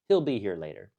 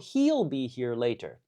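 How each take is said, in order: First: He'll has a short i vowel. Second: He'll has a long ee vowel. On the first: The speaker calls it right. "like an I sound, short I" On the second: The speaker calls it wrong. "we don't say he'll be"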